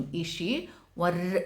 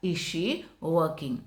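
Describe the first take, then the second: First: Slow drill cut off on "വർ" with a sounded r. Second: "working" said as wa-king with no r, slow and clear; slow model question, "working" without any r; silent r. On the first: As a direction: start "വർ" with the r clearly pronounced, slow. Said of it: "ഇർ silent ആയിട്ട് പറയുക". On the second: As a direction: drop the r in "working", careful teacher drill. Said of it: "ഇർ സൈലန്റ് ആയിട്ട് പറയുക". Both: Shown as a demonstration.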